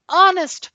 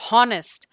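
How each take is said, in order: First: The word begins with no h sound. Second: The word begins with an audible h sound. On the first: The speaker calls it right. "H is silent" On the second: The speaker calls it wrong. "we are not going to pronounce honest as honest"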